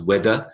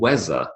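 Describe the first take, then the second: First: The middle consonant is a d sound. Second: The middle consonant is a z sound. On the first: "the d sound" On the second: "the z sound"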